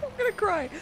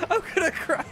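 First: Crying with laughter. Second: High voice breaking up with laughter; crying with laughter. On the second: Streamer breaking up over the game, tearful laughter. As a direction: barely hold it together through tears of laughter. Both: Real, not acted. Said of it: "I've ever cried with laughter".

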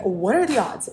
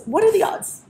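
First: Said in the usual way. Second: Rising sing-song. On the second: Acted. Repeats line, second take sung high.

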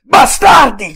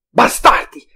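First: Much louder, higher scream of rage; full furious shout. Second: Loud angry cry, higher voice; shouted curse. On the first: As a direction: scream it with everything, breaking open. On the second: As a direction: yell the insult at the enemy. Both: A narrator's reading. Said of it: "gridò".

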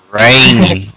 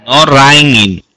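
First: Raining said as reh-ning, the model form; teacher's correct model; correct pronunciation. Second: Raining said as rai-ning with an open ai; mock mistake before correcting; imitating wrong pronunciation. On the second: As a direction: mimic the student's wrong raining. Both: Shown as a demonstration.

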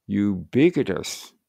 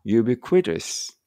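First: "ubiquitous" slowly, leaning on a long "BI"; second candidate reading. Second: "ubiquitous" slowly, with a full "kwi" syllable; first candidate reading. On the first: Teacher weighing two readings, slow stressed-BI pronunciation. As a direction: stretch "ubiquitous" on BI and shorten what follows. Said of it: "Ubiquitousになってますね". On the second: Teacher weighing two readings, slow full-kw pronunciation. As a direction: sound out "ubiquitous" slowly, keeping the kw clear. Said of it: "どっちにしようかな". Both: Shown as a demonstration.

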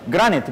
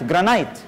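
First: جرانيت as "GRA-nit"; short-i pronunciation. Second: جرانايت as "gra-NITE"; long-i pronunciation. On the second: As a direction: end جرانايت like the word "night". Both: Shown as a demonstration. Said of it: "ازاي بنقولها جرانيت أو جرانايت".

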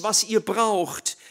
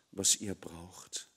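First: Raised, slow, leaning on ihr; "was ihr braucht" stressed on "ihr", drawn out; slow emphasis. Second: Much lower and softer, slow; "was ihr braucht" sinking almost to a murmur; hushed. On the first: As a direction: stress ihr firmly and slowly. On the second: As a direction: let it fade to a hush. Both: Shown as a demonstration.

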